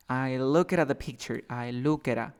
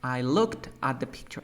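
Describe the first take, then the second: First: "look at" as looke-ra, t and d not heard; reduced linked speech. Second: "looked" with its final t fully sounded before "at"; word by word. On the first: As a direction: blend "look at" with a tapped R, endings swallowed. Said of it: "ya no se siente el sonido de T o D". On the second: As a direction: keep "looked at" as two careful words. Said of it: "pronunciar muy bien ... palabra por palabra". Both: Shown as a demonstration.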